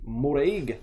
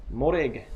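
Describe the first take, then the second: First: The name Moreg in a lightly put-on Scottish accent. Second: Said in the usual way. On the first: Reading the card name aloud to viewers in a mock Scottish accent. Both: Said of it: "my Scottish accent".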